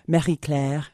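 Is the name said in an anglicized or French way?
French. The name is said in a French way.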